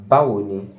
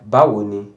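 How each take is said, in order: Both takes have the same delivery.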